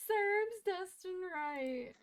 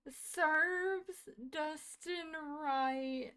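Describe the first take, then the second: First: Much higher, slow, louder stunned repeat; amazed. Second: Higher, very slow, stretched-out disbelief; saying it in slow, dazed wonder; stunned disbelief. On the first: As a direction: draw it out in giddy shock. Repeating in shock, laughing. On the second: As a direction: drag each word out in shock. Repeating shocked reaction. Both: Real, not acted.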